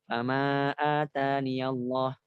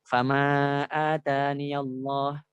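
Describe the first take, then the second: No difference in how they are said.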